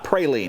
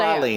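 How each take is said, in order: First: It uses the Texas pronunciation. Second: It uses the New Orleans pronunciation. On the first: This is how people say it elsewhere. The speaker calls it wrong. "not praline. Yeah, praline is where you hear you hear in Texas" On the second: This is the locally accepted way to say it. The speaker calls it right. "in New Orleans, you better say"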